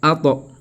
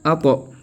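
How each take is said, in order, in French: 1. La consonne finale est relâchée avec un rebond en écho. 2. La consonne finale est relâchée avec un rebond en écho.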